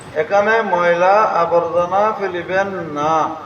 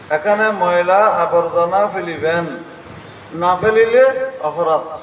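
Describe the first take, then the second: First: The pause comes after না, a prohibition. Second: The pause comes before না, a command.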